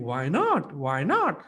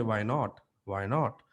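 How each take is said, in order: First: "not" swooping up and falling; enjoying voice modulation. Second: Low, restrained "Why not?"; alternative low take. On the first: Coach showing voice modulation, playful swooping "not". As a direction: relish "Why not?", with a big pitch arch on "not". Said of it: "Look at the way I'm enjoying and saying". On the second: Coach showing another way to say it, low-key "Why not?". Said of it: "I can also say". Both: Shown as a demonstration.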